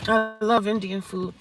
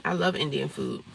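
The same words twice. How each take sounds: First: Love drawn out high and slow; stress on love. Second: Said in the usual way. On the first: Shown as a demonstration. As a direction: lean hard into love, slow and higher.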